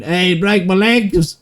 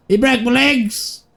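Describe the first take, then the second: First: Higher, slow hammed-up yell of pain; imitating a man wailing about his broken legs; mock scream. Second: Much higher, slow hammed-up wail; mock wail. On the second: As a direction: overplay Nigel's squealing cry. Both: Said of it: "and then Nigel just out there screaming".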